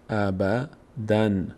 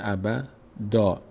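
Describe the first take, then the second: First: The word ends with an n sound. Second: The word ends with a long a. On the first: The reading continues without stopping. "اینجوری میخونیم ابدن" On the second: The reading stops at this word. "میشه ابدا، این نون تلفظ نمیشه"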